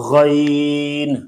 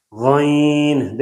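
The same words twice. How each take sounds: First: Said in the usual way. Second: غین drawn out with a nasal vowel; nasalized vowel. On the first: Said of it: "میری پہلی آواز میں اور دوسری میں". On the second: Shown as a demonstration. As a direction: send the long vowel of غین through the nose. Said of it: "کتنا فرق ہے".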